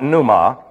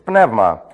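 First: The middle of the word has no v sound. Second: The middle of the word has a v sound. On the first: The speaker calls it wrong. "horribly mispronounced in Bible schools, it's not pneuma" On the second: The speaker calls it right. "it's pneuma. Looks like that, P-N-E-V-M-A"

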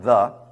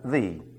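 First: The word is said with a short 'uh' vowel. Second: The word is said with a long 'ee' vowel. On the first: This form is used before a consonant. "before consonants, we pronounce it the" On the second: This form is used before a vowel. "before vowels, we pronounce it the"

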